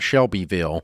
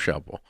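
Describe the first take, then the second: First: The name is said with an outsider's pronunciation. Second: The name is said with the local pronunciation. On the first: Only a Northerner would say it this way. The speaker calls it wrong. "not Shelbyville unless you're a Yankee" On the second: This is how people from the area say it. The speaker calls it right. "that's how you say it"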